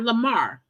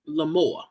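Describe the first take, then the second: First: The second syllable sounds like 'mar'. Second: The second syllable sounds like 'more'. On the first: The speaker calls it wrong. "Not Lamar" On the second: The speaker calls it right. "The man's actual name is Lamore"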